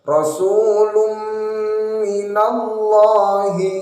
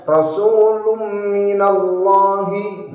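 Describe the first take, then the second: First: Rasulun minallahi with the n merged into a long humming m; correct Rasulun minallahi. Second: Rasulun minallahi with the n merged but no nasal hum; wrong Rasulun minallahi. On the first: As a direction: hold a nasal hum on the m of minallahi. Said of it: "memasukkan dengan mendengungkan". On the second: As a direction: run Rasulun into minallahi without humming the m. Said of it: "cuma memasukkan tapi tidak didengungkan". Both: Shown as a demonstration.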